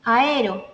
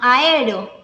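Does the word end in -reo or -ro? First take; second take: ro; ro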